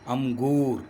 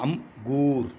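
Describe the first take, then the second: First: The word is said joined as one unit. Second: The word is split into two separate parts.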